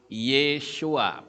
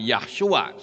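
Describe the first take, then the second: First: The name begins with the syllable 'Ye'. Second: The name begins with the syllable 'Yah'. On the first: The speaker calls it right. "Jadi namanya adalah Yeshua" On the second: The speaker calls it wrong. "bukan Yahshua"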